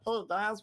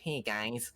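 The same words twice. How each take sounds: First: It is said in a put-on cartoon voice. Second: It is said in a nasal everyday voice. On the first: The speaker calls it right. "I'll throw in a Meatwad impression and be like" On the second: The speaker calls it wrong. "I have this like nasally voice where it's like"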